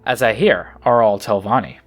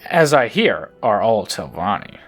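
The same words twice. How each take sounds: First: The line is read in a plain, neutral tone. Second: The line is read with a sarcastic tone.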